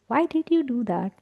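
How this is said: It is said in a gentle, curious tone. The asker is curious, not judging. The speaker calls it right. "I will be very gentle about it, but like, let's get curious"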